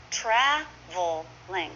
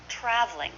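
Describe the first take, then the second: First: Slow "Traveling", tra-vel-ing, in separate parts; full three syllables. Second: "traveling" as TRAV-ling; two syllables. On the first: Teacher showing the long form, "Traveling" slowly in three syllables. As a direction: sound out each syllable of "Traveling". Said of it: "is often". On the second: Teacher modelling for learners, "traveling" shortened to trav-ling. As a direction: drop the middle vowel of "traveling". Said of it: "Two syllables". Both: Shown as a demonstration.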